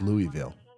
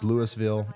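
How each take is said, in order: First: It is pronounced a third, different way. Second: It is pronounced the Mississippi way. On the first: This is the town in another state. "in wherever that other one is, it's Louisville" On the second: This is the town in Mississippi. "In Mississippi, it's Louisville"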